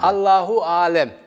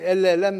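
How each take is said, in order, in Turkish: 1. İfade tam, standart biçimiyle söyleniyor. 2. İfade kısaltılmış, bölgesel bir biçimde söyleniyor. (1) "Yani onu kısalttım şekli" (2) "benim memleketimde adam bir şey ihtimal üzerinde şey yaparken elle elem şöyledir"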